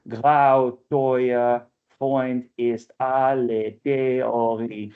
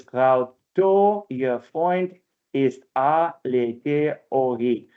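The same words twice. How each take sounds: First: Slow, measured "Grau, teuer Freund ist alle Theorie"; stately scansion of "Grau, teuer Freund ist alle Theorie"; normative metrical reading. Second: Drawn-out, counted syllables in "Grau, teuer Freund ist alle Theorie"; alternative metrical reading. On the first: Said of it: "kind of a normative reading". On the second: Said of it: "You can also read it as". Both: Shown as a demonstration.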